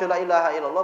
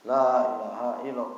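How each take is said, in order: First: The first vowel is cut short. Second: The first vowel is held for two beats. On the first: Truly there is a god besides God. The speaker calls it wrong. "lam kalau dia pendek" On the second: There is no god but God. The speaker calls it right. "dua ketukan"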